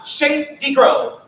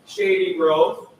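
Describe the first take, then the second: First: Louder, bouncing syllables; bouncy. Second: Sleepy Saturday-morning read; tired delivery. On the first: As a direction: let Shady Grove bounce. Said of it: "Can you let it bounce?". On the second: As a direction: sing it like you're half asleep. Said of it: "This is how we would say it if it was eight thirty". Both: Shown as a demonstration.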